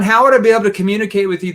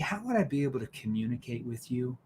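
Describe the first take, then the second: First: The question is spoken quickly. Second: The question is spoken slowly. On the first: The speaker calls it wrong. "I don't want to say" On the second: The speaker calls it right. "But if I slow down"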